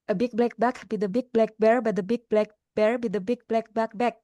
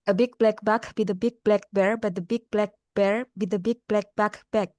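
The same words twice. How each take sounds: First: It is said as fast as possible. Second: It is said at a faster pace.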